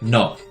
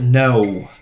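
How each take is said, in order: First: The vowel is short, quick and steady. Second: The vowel is drawn out and glides. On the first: This is how it is said in Japanese. "just something quick, short, to the point" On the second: This is how English speakers say it. "like N O O H, it's almost pronounced like that"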